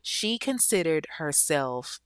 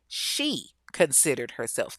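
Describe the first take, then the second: First: Said in the usual way. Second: "she" punched and set apart from the rest; stress on SHE. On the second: Shown as a demonstration. Storyteller flagging a key detail to listeners, stressing "she". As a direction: hit "she" hard, then a beat. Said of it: "notice I said".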